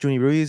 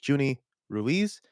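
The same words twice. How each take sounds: First: The names run together with no pause. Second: A pause separates the first and last name.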